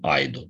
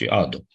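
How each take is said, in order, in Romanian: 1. Se aude un sunet i după prima vocală. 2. Nu se aude niciun sunet i după prima vocală. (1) "Nu pronunțăm aido" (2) "ci ado"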